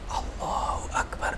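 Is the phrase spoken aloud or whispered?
whispered. The phrase is whispered without a voiced tone. "atau berbisik yang mana dia mendengarkan sendiri"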